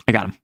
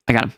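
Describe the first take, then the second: No difference in how they are said.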